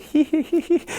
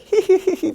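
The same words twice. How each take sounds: First: High-pitched teasing hee hee; a squeaky mocking laugh; mocking giggle. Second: Very high, louder teasing hee hee; shrill little taunting laugh; mocking giggle. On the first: Old man laughing at the student, mocking giggle. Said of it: "I was like". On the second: Old master pointing and laughing at him, taunting giggle. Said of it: "pointing and laughing at me".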